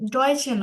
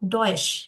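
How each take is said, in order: First: The word ends with an extra vowel sound. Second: The word ends without an extra vowel sound. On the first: The speaker calls it wrong. "ডয়েশে না" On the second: The speaker calls it right.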